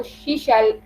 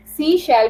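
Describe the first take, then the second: First: शी शेल with sh on both words, not s; slipped pronunciation. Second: Said in the usual way. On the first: Shown as a demonstration. Teacher showing the class the slip शी शेल, sh instead of s. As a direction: say शी शेल as shee shell, tongue slipping to sh. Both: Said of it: "mostly सी शेल जो है वो शी शेल".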